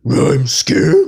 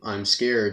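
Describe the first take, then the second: First: The words start with an added R sound. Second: The words are said without an added R sound. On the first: "It was supposed to be" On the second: "Like he'll say"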